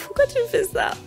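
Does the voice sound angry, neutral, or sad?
neutral. It is said plainly, without hesitation. "Au lieu de dire"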